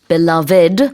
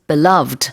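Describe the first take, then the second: First: The word is said with three syllables. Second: The word is said with two syllables. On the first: "when it's three syllables" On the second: "two syllables"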